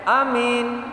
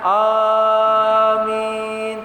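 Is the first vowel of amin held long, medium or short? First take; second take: short; long. First: The first vowel is clipped very short. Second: The first vowel is drawn out very long. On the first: "lafaz pendek" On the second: "dengan panjang"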